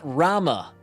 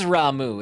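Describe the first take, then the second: First: The name ends with an 'ah' vowel. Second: The name ends with an 'oo' vowel. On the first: The speaker calls it wrong. "It's not Rama" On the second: The speaker calls it right. "It is Ramu"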